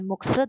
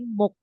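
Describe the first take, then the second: First: The word ends with an extra 'se' syllable. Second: The word ends on a K sound. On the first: The speaker calls it wrong. "bukan mukse" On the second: The speaker calls it right. "tapi muk"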